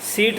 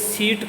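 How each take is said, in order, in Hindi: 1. शब्द सादे 's' ध्वनि से शुरू होता है। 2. शब्द 'sh' ध्वनि से शुरू होता है। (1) "दंतव्य स का उच्चारण नहीं किया जाता" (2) "दंतव्य स के स्थान पे तालव्य स बोलते हैं"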